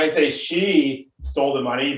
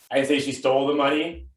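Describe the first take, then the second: First: The stress is on "she". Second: The stress is on "stole".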